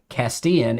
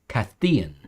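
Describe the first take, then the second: First: The middle consonant is a plain s sound. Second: The middle consonant is a lisped th sound. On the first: It is said the way non-Spain speakers say it. "instead of" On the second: It is said the way people in Spain say it. "they do like the instead of sa"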